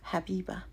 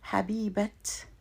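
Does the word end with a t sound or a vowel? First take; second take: vowel; t sound. First: The word ends in a vowel, without t. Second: The word ends with an audible t sound. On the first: "I'm not pronouncing that feminine marker" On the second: "I have to pronounce the ta marbuta as a T"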